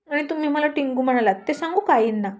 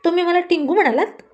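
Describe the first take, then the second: First: Quick, higher, nervous comeback; flustered counter-threat. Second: Higher and louder, offended protest; indignant outburst. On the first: Rani, scared of the mother-in-law, rushes a nervous counter-threat. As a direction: rush it out, scared but hitting back. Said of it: "तशी राणी घाबरली". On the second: Rani, hurt at being called tiny, snaps back indignantly. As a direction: bristle at being called short. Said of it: "राणी चिडली आणि म्हणाली". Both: Acted.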